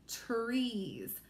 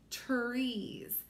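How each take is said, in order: Both takes have the same delivery.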